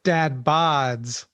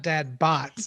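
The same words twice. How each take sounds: First: "Dad bods" with a voiced d at the end of bods; correct pronunciation. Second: "dad bots" said with a clear final t, as in robots; "bots" ending in a crisp t sound; mispronunciation. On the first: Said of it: "not dad bots". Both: Shown as a demonstration.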